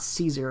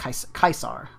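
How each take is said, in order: First: The word begins with a soft S sound. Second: The word begins with a hard K sound. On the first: The speaker calls it wrong. "it's not Caesar if you're talking about Latin" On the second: The speaker calls it right. "It's like a K"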